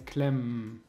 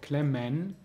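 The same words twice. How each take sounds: First: The e in the ending is dropped. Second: The e in the ending is pronounced.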